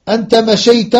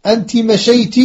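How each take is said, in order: First: أنت مشيت with final "a" on both words: anta mashayta; masculine -ta endings. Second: أنت مشيت with final "i" on both words: anti mashayti; feminine -ti endings. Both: Shown as a demonstration. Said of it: "إسناد مشى إلى الضمائر".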